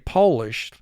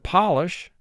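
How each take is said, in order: First: The first vowel is a long O sound. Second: The first vowel is a short O sound. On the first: A person who comes from Poland. "O is representing its long sound" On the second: To rub furniture so it shines. "the O is representing its short sound"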